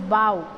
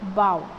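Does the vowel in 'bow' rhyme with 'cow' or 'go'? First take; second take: cow; cow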